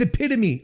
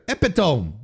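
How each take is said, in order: First: It is said with the standard English pronunciation. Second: It is said with a French-style pronunciation. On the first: The speaker calls it right. "That's right" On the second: The speaker calls it wrong. "this is the French part of my brain sort of sneaking in"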